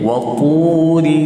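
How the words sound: The r is tapped like an Arabic r. The speaker calls it right.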